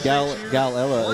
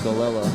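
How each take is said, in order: First: Every L sound is clearly enunciated. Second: The L sounds are slurred together. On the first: The speaker calls it right. "is how you say it" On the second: The speaker calls it wrong. "not Galella"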